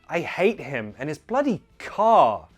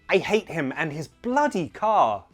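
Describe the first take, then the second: First: The word car carries the main stress. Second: The word bloody carries the main stress. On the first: "But that isn't a solid rule. Of course you could say" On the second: "if you stress the word bloody, it sounds like you're more annoyed"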